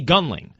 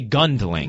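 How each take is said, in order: First: The name is said without a D sound. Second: The name is said with a D sound. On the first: The speaker calls it right. "I just say Gunling" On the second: The speaker calls it wrong. "I don't say Gundling"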